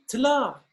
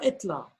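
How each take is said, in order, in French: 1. Le mot commence directement par un groupe de consonnes. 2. Le mot commence par un son voyelle bref. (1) "On dit tla" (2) "et non pas etla"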